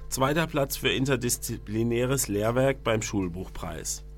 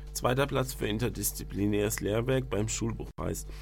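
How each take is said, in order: The two takes are said the same way.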